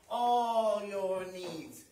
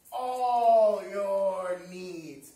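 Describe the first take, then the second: First: "All your needs" low and drawn out, without the swell; subdued repeat. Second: "all your needs" very slow and low, swelling on "all"; weighty proclamation. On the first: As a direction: let "All your needs" sink in slowly, gently. Same promise repeated more softly. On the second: Preached promise, first take. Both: Real, not acted.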